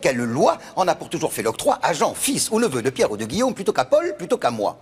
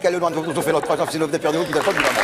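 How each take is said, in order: First: It is said slowly. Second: It is said very fast.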